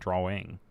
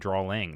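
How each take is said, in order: First: It is said without an L-like sound. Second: It is said with an L-like sound. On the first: The speaker calls it right. "not drawing" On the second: The speaker calls it wrong. "There's no L in drawing"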